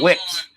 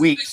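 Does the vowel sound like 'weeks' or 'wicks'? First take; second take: wicks; weeks. First: The vowel is short, like 'wicks'. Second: The vowel is long, like 'weeks'. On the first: The speaker calls it wrong. "he said" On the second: The speaker calls it right. "Instead of saying"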